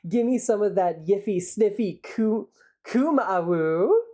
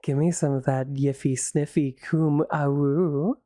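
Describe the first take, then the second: First: It is said in a plain voice. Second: It is said in a sultry voice.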